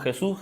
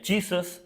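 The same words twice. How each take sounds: First: Said in the usual way. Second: "Jesus" said the English way, JEE-zus; English pronunciation. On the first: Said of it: "nosotros le decimos Jesús". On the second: Shown as a demonstration. Showing the congregation how Americans say "Jesus", English pronunciation. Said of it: "En Estados Unidos le dicen".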